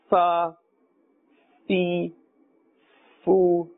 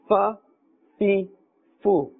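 First: The vowels are stretched and drawn out. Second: The vowels are short and not stretched. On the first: The speaker calls it wrong. "we must not stretch the sound ... we must not say" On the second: The speaker calls it right. "in the normal manner, and very calmly"

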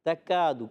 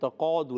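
First: The k is a light, plain kaf sound. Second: The k is a heavy, deep qaf sound. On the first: The speaker calls it right. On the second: The speaker calls it wrong.

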